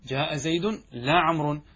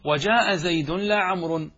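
First: Said in the usual way. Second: "وجاء زيد لا عمرو" read slowly and louder, each word set apart; measured textbook recitation; slow recited example. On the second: Shown as a demonstration. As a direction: recite the example line deliberately. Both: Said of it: "الحرف الثاني".

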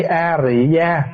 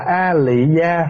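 First: A Rị Gia with an r sound, said slowly; slow demo of A Rị Gia. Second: A Lị Gia with an l sound, said slowly; slow demo of A Lị Gia. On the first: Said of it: "thì chữ A Rị nó gần hơn". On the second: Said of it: "đều là chữ phiên âm". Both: Shown as a demonstration.

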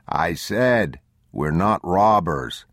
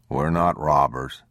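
First: "robbers" drawn out slowly; emphatic repeat. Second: Said in the usual way. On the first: A narrator's reading. Man repeating to hard-of-hearing stranger, slower emphatic "robbers". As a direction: repeat it firmly, stretching "robbers".

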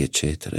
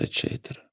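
First: Said in the usual way. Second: Whispered trailing off. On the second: A narrator's reading. Narrator trails off.

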